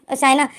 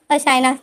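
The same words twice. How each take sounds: The two takes are said the same way.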